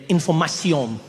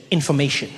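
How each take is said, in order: First: INFORMATION said the French way, ending in a nasal "-syon"; French pronunciation. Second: Said in the usual way. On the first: Shown as a demonstration. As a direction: read "Information" as a French word. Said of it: "And in French". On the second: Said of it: "And then underneath in English said".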